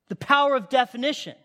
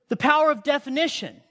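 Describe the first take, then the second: Both takes have the same delivery.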